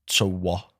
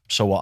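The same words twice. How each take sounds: First: It sounds like a genuine, probing question. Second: It sounds dismissive and uncaring.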